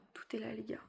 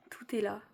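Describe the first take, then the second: First: Hushed whisper, almost breathless. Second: Said in the usual way. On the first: Real, not acted. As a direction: drop to a whisper. Showing belly to viewers.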